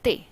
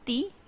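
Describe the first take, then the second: First: The vowel sounds like 'eh'. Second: The vowel sounds like 'ee'. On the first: The speaker calls it right. "it is Te" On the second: The speaker calls it wrong. "It is not Ti"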